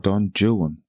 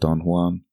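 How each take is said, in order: First: The name is pronounced the English way. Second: The name is pronounced the Spanish way.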